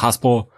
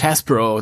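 First: The name is said with a Hessian pronunciation. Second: The name is said with an English pronunciation. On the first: "der Hessisch sagt Hasbro" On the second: "Du sagst immer so schön Englisch Hasbro"

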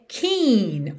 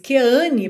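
First: It is said with English sounds, like keen. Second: It is read with Portuguese spelling sounds. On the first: The speaker calls it right. "mas a pronúncia é Keane" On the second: The speaker calls it wrong. "naturalmente soa aí em português Keane pra gente, quando a gente lê a palavra"

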